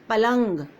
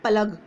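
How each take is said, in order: First: It has a nasal sound before the g. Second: It has no nasal sound before the g. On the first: The speaker calls it right. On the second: The speaker calls it wrong.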